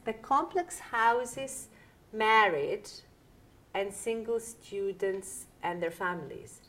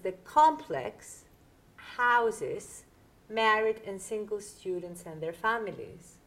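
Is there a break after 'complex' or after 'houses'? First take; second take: after houses; after complex. First: The phrase 'complex houses' is grouped together. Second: A break falls between 'complex' and 'houses'. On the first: Houses is heard as a noun, so the sentence makes no sense. The speaker calls it wrong. "If I read it like that to you, it's completely incomprehensible" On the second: The complex is the subject that houses the students. The speaker calls it right. "What this means is"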